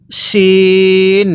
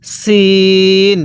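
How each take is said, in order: First: শিন with a thick sh and long ee; drawn-out, full-sh শিন; thick SH sound. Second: সিন with a thin, sharp s and long ee; drawn-out thin-s সিন, no sh; thin S sound. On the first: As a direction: stretch শিন as "sheeen" on a level note. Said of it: "ওটা মোটা করে পড়তে হবে". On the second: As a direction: hold সিন as a level "seeen". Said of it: "নক্তা ছাড়াটা চিকন করে পড়ব". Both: Shown as a demonstration.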